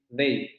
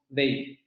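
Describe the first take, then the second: The two takes are said the same way.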